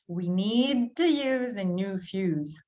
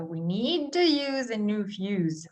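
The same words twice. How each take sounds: First: Slowed down with words run together; slow it down and blend the words; slow blended reading. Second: Model sentence. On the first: Teacher slowly showing learners the blending. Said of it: "notice how we have blending here". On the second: Teacher reading a model sentence for learners. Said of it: "you guys try first". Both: Shown as a demonstration.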